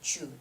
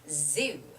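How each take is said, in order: First: The word begins with a ch sound. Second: The word begins with a buzzing z sound. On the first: The speaker calls it wrong. "most Koreans would say chu" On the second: The speaker calls it right. "It has to be zoo"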